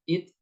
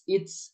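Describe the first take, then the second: First: The final t ends cleanly without any hiss. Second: The final t is released with an s hiss. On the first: The speaker calls it right. "biasa aja" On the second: The speaker calls it wrong. "Huruf ta itu tidak ada suara S-nya. ... ini keliru"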